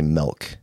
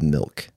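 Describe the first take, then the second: First: The vowel sounds like 'eh', as in 'melk'. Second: The vowel sounds like 'ih', as in 'milk'. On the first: The speaker calls it wrong. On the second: The speaker calls it right.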